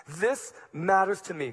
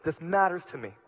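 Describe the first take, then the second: First: "This" hit hard, falling away after; stress on this. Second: "matters" punched, the rest falling; stress on matters. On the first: Preacher to the third servant, stressing "This". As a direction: lean on "This" at the start. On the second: Preacher repeating the line, stressing "matters". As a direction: lean on "matters" in the middle. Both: Shown as a demonstration.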